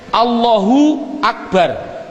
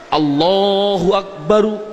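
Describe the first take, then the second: First: The last word stops on the final consonant. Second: The last word ends with an added vowel. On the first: The phrase ends with a pause. "Mengapa kok dibilang bar? Karena wakof" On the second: The full grammatical ending is kept. "sah nggak? Jawabnya adalah sah"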